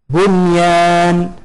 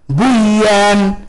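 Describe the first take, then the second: First: The n is pronounced clearly before the y. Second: The n merges into the following y sound. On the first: The speaker calls it right. "إنما تقرأ بها مظهرة" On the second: The speaker calls it wrong. "فلا يجوز لك أن تقول"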